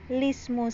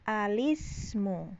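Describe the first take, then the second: First: The word begins directly with the l sound. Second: The word begins with a short a vowel. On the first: "hamzah wasolnya dibuang menjadi lismu saja ya. Jadi a-nya enggak ada" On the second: "memfathahkan hamzah wasol dan mengkasrohkan lamnya"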